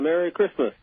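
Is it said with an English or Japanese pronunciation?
English. It is said with an English pronunciation.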